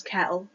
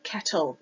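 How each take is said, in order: First: "kettle" with a glottal stop for the tt; dropped T. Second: Said in the usual way. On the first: Shown as a demonstration. Student showing Scottish T glottling, "kettle" with its T dropped. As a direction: say "kettle" as ke'le, catch in the throat replacing the T. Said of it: "where we drop". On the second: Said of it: "of the T's in words".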